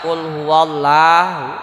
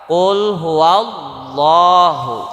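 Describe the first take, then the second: First: The L sound is light and thin. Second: The L sound is heavy and thick. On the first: The speaker calls it wrong. "itu secara kaidah tajwid bacaannya salah" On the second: The speaker calls it right. "maka lafadz Allahnya dibaca tebal"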